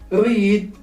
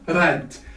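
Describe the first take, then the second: First: It has the present-tense vowel sound. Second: It has the past-tense vowel sound. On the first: It is the base form of the verb. "it stays as it is" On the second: It is the past simple form. "the sound of spelling has changed"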